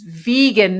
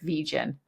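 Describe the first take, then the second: First: The g is pronounced as a hard g. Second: The g is pronounced as a soft g. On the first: The speaker calls it right. "It's vegan" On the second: The speaker calls it wrong. "you know, soft G"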